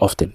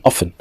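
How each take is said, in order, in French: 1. Le t du milieu est prononcé. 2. Le t du milieu est muet. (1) "on dit pas often" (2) "on dit often"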